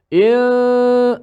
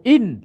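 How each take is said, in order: First: The n is hidden, leaving only a nasal hum. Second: The n is fully closed with the tongue tip. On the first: The speaker calls it right. "Kita sebut il. Ah, dengung bunyi" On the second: The speaker calls it wrong. "Tak boleh sebut in"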